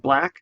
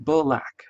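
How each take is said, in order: First: The word is said with no extra sound. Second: The word is said with an extra sound added. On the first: The speaker calls it right. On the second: The speaker calls it wrong.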